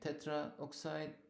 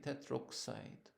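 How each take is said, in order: First: The vowel before oxide is fully kept. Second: The vowel before oxide is dropped. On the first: The speaker calls it wrong. "we don't say tetraoxide" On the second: The speaker calls it right. "we drop this one and we say tetroxide"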